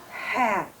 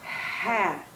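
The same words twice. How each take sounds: First: The word is said at normal speed. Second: The word is drawn out slowly.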